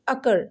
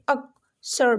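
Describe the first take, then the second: First: The middle consonant is said as one sound. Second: The middle consonant is said as two sounds. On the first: The speaker calls it right. "एक ही pronunciation, double सी की क्या, a single letter" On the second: The speaker calls it wrong. "यहाँ पे अक सर बिल्कुल भी नहीं"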